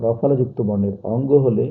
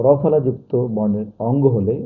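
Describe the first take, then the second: No difference in how they are said.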